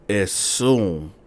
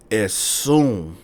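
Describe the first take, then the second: No difference in how they are said.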